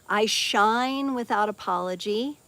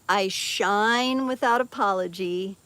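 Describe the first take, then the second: Both takes have the same delivery.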